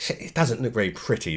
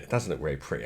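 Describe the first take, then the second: First: Said in the usual way. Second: Quiet aside repeating the remark; muttered repeat. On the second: Real, not acted. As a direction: lower and softer, under the breath. Repeats remark, second time muttered.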